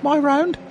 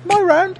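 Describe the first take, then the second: First: Very high squeaky little voice. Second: Even higher, squeakier retelling; squeaky voice. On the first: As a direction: squeak it out timidly. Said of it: "in a very squeaky voice". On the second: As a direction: squeak it out like a frightened mouse. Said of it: "but it was just like". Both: Retold or imitated.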